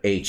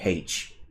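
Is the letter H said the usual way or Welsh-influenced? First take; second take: usual; Welsh-influenced. First: It is said in the speaker's usual pronunciation. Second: It is said with a Welsh-influenced pronunciation. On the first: "instead of H" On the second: "I say H"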